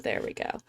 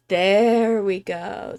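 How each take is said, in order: First: Soft unvoiced there we go; whispering. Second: Said in the usual way. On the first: Real, not acted. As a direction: whisper it to yourself. Repeated as whisper.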